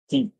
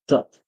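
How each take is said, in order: First: The vowel is a long ee sound. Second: The vowel is a short uh sound. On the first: The next word begins with a vowel. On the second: The next word begins with a consonant.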